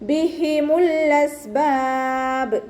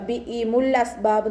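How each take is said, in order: First: The h sound is clearly breathed from the throat. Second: The h sound becomes a glottal stop. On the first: The speaker calls it right. "അതുപോലെ ഓതാട്ടോ" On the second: The speaker calls it wrong. "Sound ഹംസയായി പോവാൻ ചാൻസ് ഉണ്ട്, ... നോതരുത്"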